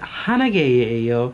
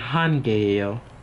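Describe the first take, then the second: First: The number word has two full syllables. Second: The number word is shortened to one syllable. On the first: The speaker calls it wrong. "it's it's like too much, and you can't say it as quickly" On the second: The speaker calls it right. "for a smooth pronunciation"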